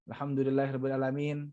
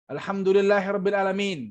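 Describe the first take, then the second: First: It is said flatly, like a vocabulary drill. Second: It is said with lively, varied sermon intonation. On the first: It sounds like studying vocabulary. The speaker calls it wrong. "ini enggak. Ini lagi belajar mufrodat mungkin" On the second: It is delivered as a sermon. The speaker calls it right. "harus intonasi khutbah"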